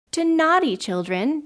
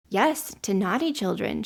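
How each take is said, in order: First: High, loud shocked question; astonished exclamation. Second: Said in the usual way. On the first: A narrator's reading. Children taken aback by the girl's rule, astonished exclamation. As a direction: exclaim it in disbelief. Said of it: "they exclaimed". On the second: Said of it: "she answered".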